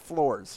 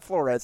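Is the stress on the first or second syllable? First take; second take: first; second. First: The stress is on the first syllable. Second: The stress is on the second syllable. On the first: The speaker calls it right. "No emphasis on the Eds" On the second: The speaker calls it wrong. "It's not Flores"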